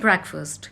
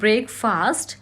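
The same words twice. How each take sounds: First: Both parts are said short and reduced, not fully. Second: Both parts are said fully, like 'break' and 'fast'. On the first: The speaker calls it right. "बोलते हैं ब्रेकफास्ट" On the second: The speaker calls it wrong. "It is not ब्रेकफास्ट"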